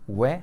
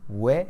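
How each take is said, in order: No difference in how they are said.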